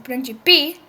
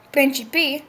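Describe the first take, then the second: First: Principi said prin-CI-pi, stress on the middle syllable; stress for principles. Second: Principi said PRIN-ci-pi, stress on the first syllable; stress for princes. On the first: Teacher showing the Italian for principles, stress on CI. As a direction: say principi leaning on CI. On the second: Teacher showing the Italian for princes, stress on PRIN. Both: Shown as a demonstration. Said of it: "with different stress".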